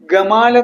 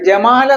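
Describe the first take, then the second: First: The name starts with a hard g sound. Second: The name starts with a j sound. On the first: This is the Egyptian form. "ഗമാൽ എന്നാണ് അവർ ഉച്ചരിക്കുന്നത്" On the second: This is the usual form outside Egypt. "ജമാൽ എന്നുള്ള പേര്"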